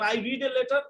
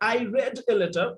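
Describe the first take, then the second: First: The word read has a long ee vowel. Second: The word read has a short e vowel. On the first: It happens regularly, in the present. "কেউ যদি এটাকে রিড উচ্চারণ করে ... এটা present" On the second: It happened in the past. "এটাকে যদি কেউ past করতে চায় তাহলে এটা হবে"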